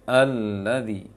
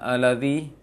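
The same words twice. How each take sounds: First: The doubled L sound is held long. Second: The doubled L sound is cut short. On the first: The speaker calls it right. "tapi alladzi. Berikan hak tasydid, menahan tasydidnya" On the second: The speaker calls it wrong. "Jangan alladzi"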